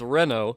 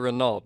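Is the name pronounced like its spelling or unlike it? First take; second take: unlike spelling; like spelling. First: The name is pronounced differently from its written form. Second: The name is pronounced the way it looks written. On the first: The speaker calls it right. "the correct pronunciation" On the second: The speaker calls it wrong. "I still always want to say Renault because when you look at the print, the spelling of it"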